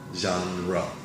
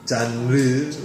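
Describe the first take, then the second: First: It is said with English pronunciation. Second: It is said with Korean pronunciation. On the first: The speaker calls it right. "genre is the pronunciation" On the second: The speaker calls it wrong. "But Korean pronunciation is"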